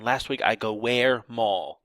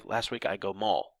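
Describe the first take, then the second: First: Slow, with "where" set apart before "mall"; drawn-out "where" in a word-by-word gloss; rhetorical question misused. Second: Said in the usual way. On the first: Shown as a demonstration. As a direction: lean on "where", then give "mall" as the answer. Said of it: "Don't sign". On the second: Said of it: "You would just say".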